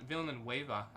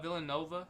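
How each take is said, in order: First: The middle sounds like 'nueva'. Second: The middle sounds like 'nova'. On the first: The speaker calls it right. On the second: The speaker calls it wrong.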